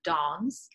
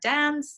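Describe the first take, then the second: First: It is said with a British vowel. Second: It is said with an American vowel. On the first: "instead of dance" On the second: "American English says things like dance"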